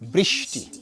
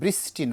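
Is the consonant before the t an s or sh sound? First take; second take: sh; s. First: The consonant before t sounds like sh. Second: The consonant before t sounds like s. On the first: The speaker calls it right. "শীষ ধ্বনি" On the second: The speaker calls it wrong. "বৃষ্টি নয়"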